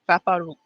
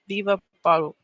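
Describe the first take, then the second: First: It starts directly with 'va', no extra syllable. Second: An extra 'vi' syllable comes before 'va'. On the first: The speaker calls it right. "without the V I in the front" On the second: The speaker calls it wrong. "why does that sound so weird to me?"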